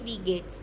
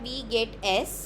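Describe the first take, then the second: First: The 's' is joined straight onto 'geht'. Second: The word 'es' is said as a separate syllable. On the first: "pronunciation है इसकी वी गेट्स" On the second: "शुरू में पढ़ा था"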